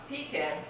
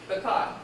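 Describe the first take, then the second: First: The stress is on the first syllable. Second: The stress is on the second syllable. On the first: "first syllable is stressed" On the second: "Second syllable is stressed in pecan"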